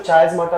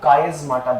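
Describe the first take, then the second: First: The word begins with a ch sound. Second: The word begins with a k sound. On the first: "आप इसको चायस्माटा भी बोल सकते हो" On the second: "इसको कायस्माटा बोलते हैं"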